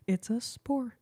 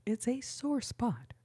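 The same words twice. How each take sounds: First: "spore" said by mistake for sore spot; slip of the tongue. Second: "sore spot" said carefully and a bit slower, fixing the slip; slowly fix it to "sore spot"; corrected phrase. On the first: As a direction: stumble into "spore" instead of sore. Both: Real, not acted. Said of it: "I can't talk good".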